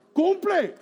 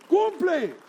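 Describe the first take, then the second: First: High, loud command Cumple; commanding shout. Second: High, loud repeated Cumple; commanding shout again. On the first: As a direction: bark Cumple like an order. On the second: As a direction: hammer Cumple home once more. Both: Acted.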